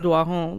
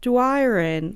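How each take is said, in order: First: The surname is said with a French pronunciation. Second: The surname is said with an English pronunciation. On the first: This is how she has always said her own name. The speaker calls it right. "I grew up doing French immersion since primary, so I've always been [name]" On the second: This is how English speakers say the name. The speaker calls it wrong. "if people pronounce it English, that's fine, but it just would be so weird for me"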